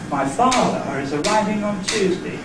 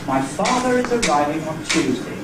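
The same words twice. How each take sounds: First: It breaks into two phrases after 'my father'. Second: It is said as one unbroken phrase. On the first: "I had it as two. The first group was my father" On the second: "I had it as one group, one word group"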